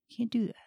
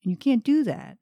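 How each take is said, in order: First: Whispered repeat. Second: Said in the usual way. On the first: Real, not acted. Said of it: "repeated in whisper". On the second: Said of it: "first take".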